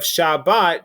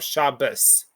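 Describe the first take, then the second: First: The stress is on the last syllable. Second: The stress is on the first syllable.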